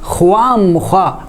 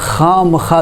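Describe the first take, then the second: First: It has a w sound after kh. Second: It has no w sound after kh. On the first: The speaker calls it wrong. "ख्वाम खा गलत है" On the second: The speaker calls it right. "खाम खा दुरुस्त है"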